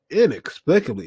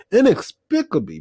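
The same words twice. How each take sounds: First: Said in the usual way. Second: Inexplicably thrown up high in disbelief; incredulous emphasis. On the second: Real, not acted. Retelling the film's parents, stressing inexplicably. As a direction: hit inexplicably much higher, incredulous.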